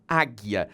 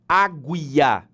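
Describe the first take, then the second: First: No 'u' sound is heard after the g. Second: A 'u' sound is heard after the g. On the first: The speaker calls it right. "você fala águia. O som do U não é transmitido" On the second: The speaker calls it wrong. "Eu não tenho A, G, U, I, A, porque você não fala águia"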